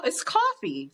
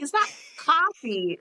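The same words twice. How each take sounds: First: "coffee" with a rounded "aw" vowel; own coffee pronunciation. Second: "coffee" with an open "ah" vowel; imitating a friend's unrounded vowel in "coffee"; friend's coffee pronunciation. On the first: Retold or imitated. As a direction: say "coffee" as "cawfee". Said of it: "when I say coffee". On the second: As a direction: say "coffee" as "cahfee". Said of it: "She's like".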